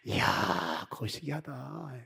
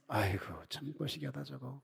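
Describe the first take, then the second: First: It sounds admiring and delighted. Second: It sounds disapproving and sighing.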